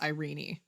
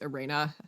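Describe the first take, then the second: First: The name is said in a British style. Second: The name is said in a German style. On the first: "the British way of saying that name is Irene" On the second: "the German way of saying that name"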